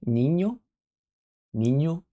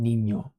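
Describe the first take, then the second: First: Niño as NEEN-yo, rising like a question; Spanish ñ. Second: Niño with a hint of Italian, falling at the end; slight Italian accent. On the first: Streamer checks ñ with viewers, niño with ny and questioning rise. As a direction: say niño with a ny glide, pitched up at the end. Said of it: "Can you pronounce N?". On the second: Streamer shows the accidental mix, faint Italian accent on niño. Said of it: "a little bit of the Italian accent". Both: Shown as a demonstration.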